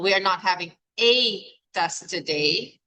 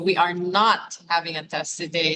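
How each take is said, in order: First: The word a carries the main stress. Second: The word not carries the main stress. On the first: There may be more than one test. "If the emphasis is on the a" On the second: There is definitely no test today. "So the emphasis on not"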